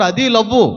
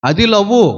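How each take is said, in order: First: అది love, landing firmly on love; stress on love. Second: అది love, lingering on love as a question; stress on love. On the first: (love ను సాగదీసి స్థిరంగా ముగించడం) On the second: (love ను పైకి లేపుతూ సాగదీసి చెప్పడం) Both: Shown as a demonstration.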